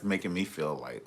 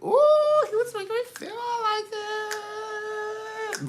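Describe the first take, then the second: First: Said in the usual way. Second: Very high, drawn-out mock wail; exaggerated wail. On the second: Partner mimicking how the boyfriend made them feel, exaggerated wail. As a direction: stretch it out in a hammed-up high squeal. Hammed-up repeat of the feeling.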